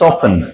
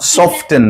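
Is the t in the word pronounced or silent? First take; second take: silent; pronounced. First: The t sound is left silent. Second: The t sound is clearly pronounced. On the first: The speaker calls it right. "বলো সফেন" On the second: The speaker calls it wrong. "সফটেন না"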